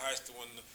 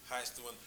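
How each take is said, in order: The two takes are said the same way.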